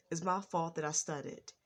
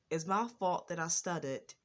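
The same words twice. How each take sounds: The two takes are said the same way.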